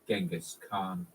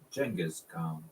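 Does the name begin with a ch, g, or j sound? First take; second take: g; j. First: The name begins with a hard g sound. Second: The name begins with a j sound. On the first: "an extremely common mispronunciation" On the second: "Arabic has no ch ch sound, and so they used their letter J"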